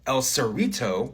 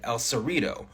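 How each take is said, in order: First: The T is said as a full T. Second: The T is said as a quick tap.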